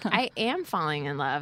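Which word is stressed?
am. The full form is used with stress on am. It echoes the producer's question as an answer. The speaker calls it wrong. "their intonation is super weird. So they'll be like"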